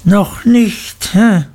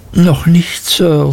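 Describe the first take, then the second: First: Menacing schoolmaster's jeer; mocking echo. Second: Put-on higher-pitched, wincing boy's answer; timid, hurting schoolboy; pained. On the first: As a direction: throw the words back with a needling "hä". Creakle mockingly repeats boy's answer. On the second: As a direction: answer respectfully while shrinking from pain. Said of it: "vor Schmerzen zurückweichend". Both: A narrator's reading.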